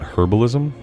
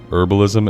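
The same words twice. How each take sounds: First: The word starts with an h sound. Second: The word starts without an h sound. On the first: This is the form some listeners expect. "and not herbalism" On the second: This is the form the speaker uses. "I say herbalism"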